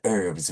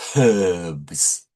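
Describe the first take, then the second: First: The word begins with no h sound. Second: The word begins with an h sound. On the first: This is how North American speakers say it. "North Americans say herbs without H" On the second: This is how British speakers say it. "often British people say herbs"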